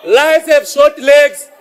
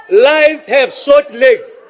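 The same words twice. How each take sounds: The two takes are said the same way.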